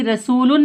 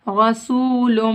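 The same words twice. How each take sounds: First: रसूलुन spoken with a plain final n; incorrect reading. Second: रसूलुम slow, ending on a humming m; ghunna. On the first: Teacher showing what to avoid, plain n ending रसूलुन. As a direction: say रसूलुन at talking pace, no hum. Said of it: "रसूलुन नहीं पढ़ेंगे". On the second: Teacher modelling nasal joining, humming end of रसूलुम. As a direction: chant रसूलुम with long oo and held final m. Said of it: "गुन्ना इख्फा के साथ पढ़ेंगे". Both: Shown as a demonstration.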